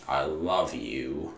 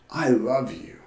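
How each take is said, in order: First: "I love you" slow, much softer and lower, meaning every word; heartfelt. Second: Said in the usual way. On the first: Shown as a demonstration. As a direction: let "love" linger tenderly, barely above a murmur. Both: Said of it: "There's a big difference between saying".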